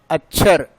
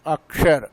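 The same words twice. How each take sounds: First: अक्षर said as "acchhar", क्ष softened to chh; the wrong regional अक्षर, chh for ksh; regional mispronunciation. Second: अक्षर with a clear ksh, "akshar"; correct pronunciation. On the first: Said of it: "लेकिन सही शब्द क्या है". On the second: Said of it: "सही शब्द क्या है". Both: Shown as a demonstration.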